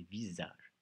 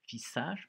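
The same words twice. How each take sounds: First: "visage" with a voiced z sound; "visage" said properly as "vizage"; correct pronunciation. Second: "visage" with a hissed s, as "vissage"; "visage" mispronounced as "vissage", higher; wrong pronunciation. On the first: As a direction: say "visage" with a buzzing z, settling down. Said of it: "mais visage". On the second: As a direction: say "visage" with s instead of z, pitched up. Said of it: "ça se dit pas". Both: Shown as a demonstration.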